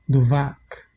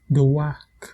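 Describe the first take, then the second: First: The word is said with a V sound. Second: The word is said without a V sound.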